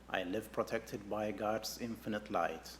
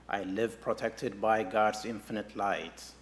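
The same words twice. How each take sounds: First: It is spoken in a soft voice. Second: It is spoken at normal volume. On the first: "A little softer now" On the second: "Now in a normal speaking voice"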